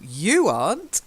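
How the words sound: The stress falls on the word you. Others are in the books, but not this person. The speaker calls it right. "So it would be stressed on the you"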